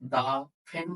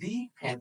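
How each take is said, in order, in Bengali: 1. 'The'-এর একটি ছোট 'uh' স্বরধ্বনি আছে। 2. 'The'-এর একটি দীর্ঘ 'ee' স্বরধ্বনি আছে।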